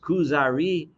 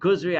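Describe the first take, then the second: First: The name is said with three syllables. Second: The name is said with two syllables.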